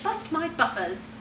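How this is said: It is said in a British accent. "the British"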